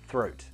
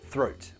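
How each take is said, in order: No difference in how they are said.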